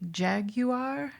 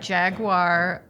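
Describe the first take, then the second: First: Jaguar is said in a posh British style. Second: Jaguar is said in an ordinary everyday way.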